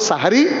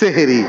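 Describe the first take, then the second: First: The first vowel is an 'a' sound. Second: The first vowel is an 'e' sound. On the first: The word means the pre-dawn meal. The speaker calls it right. "বাংলায় আমরা দুটো শব্দ উচ্চারণ করতে পারি, একটা হলো সাহারি" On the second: The word would mean something to do with magic. The speaker calls it wrong. "আমাদের অধিকাংশ লোকই বলে সেহেরি, আরবিতে কোথাও সেহেরি শব্দটা নেই"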